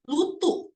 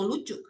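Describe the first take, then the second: First: The middle consonant is a t sound. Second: The middle consonant is a ch sound. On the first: It imitates a baby's lisping speech. The speaker calls it wrong. "jangan dicadel-cadelin ... Jadi jangan gini" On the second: It is the correct adult pronunciation. The speaker calls it right. "bukan lutu, lucu"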